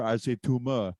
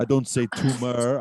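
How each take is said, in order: First: "tumor" ending in "ah", no R; imitated Austrian "tumor", said as TOO-mah; tumor without R. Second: "tumor" with a clearly sounded final R; mock Austrian contrast, "tumor" ending in a hard R. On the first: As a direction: drop the final R of "tumor", Austrian style. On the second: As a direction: say "tumor" slowly, hitting the ending R. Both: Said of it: "does not pronounce my R's".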